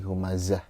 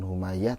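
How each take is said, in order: First: The middle consonant is a z sound. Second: The middle consonant is a y sound. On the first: The speaker calls it right. "tapi Humazah" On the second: The speaker calls it wrong. "jadi bukan Humayah"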